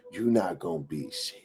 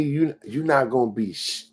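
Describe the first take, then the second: First: Low, softened imitation of a teacher's whisper; retold whisper in the ear. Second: Said in the usual way. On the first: Teacher to a little kid, a mock whispered put-down. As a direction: drop right down, as if into a child's ear. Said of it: "whispered in my ear". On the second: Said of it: "she told me".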